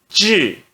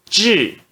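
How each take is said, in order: No difference in how they are said.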